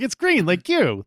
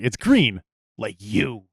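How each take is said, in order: First: The tone is warm and friendly. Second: The tone is mocking and demeaning. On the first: It is a compliment. "then that's positive" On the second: It is an insult about skin color. "then then it becomes racist"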